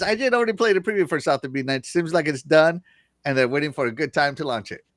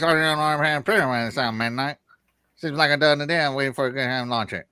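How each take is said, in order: First: Said in the usual way. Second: Put-on Southern accent. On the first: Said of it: "I'm kidding". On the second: Host reads gamer's chat comment, joking Southern accent. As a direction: read it in a hammed-up Southern accent. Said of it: "couldn't help myself but to use that accent".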